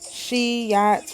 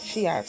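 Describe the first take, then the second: First: The y sound is held long, doubled. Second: The y sound is short, single. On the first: The speaker calls it right. "you would say" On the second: The speaker calls it wrong. "rather than"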